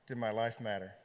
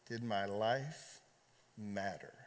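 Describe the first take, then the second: First: Said in the usual way. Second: "Did my life" drawn out slowly, then "matter" dropped much lower and softer; slow, quiet repeat. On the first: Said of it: "Am I ready for what's next?". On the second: Shown as a demonstration. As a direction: let "matter" sink to almost nothing.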